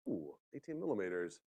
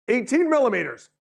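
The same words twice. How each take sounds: First: Very soft, low echo; hushed mock awe. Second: High, loud sudden announcement; mock alarm. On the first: Smart control hearing the rain forecast, hushed and low. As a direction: take in the big number under your breath. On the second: Weather service suddenly alerting the smart control, high and loud. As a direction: burst out with the surprise forecast figure.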